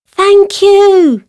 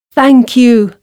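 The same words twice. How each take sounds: First: Loud, very high mouse call; shouted. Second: Louder thanks in an understated lion voice. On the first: Mouse fleeing the lion, high shouted thanks. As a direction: call out as an escaping little mouse. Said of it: "she shouted". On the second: Freed lion thanking mouse, firm understated voice. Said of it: "said the lion". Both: A narrator's reading.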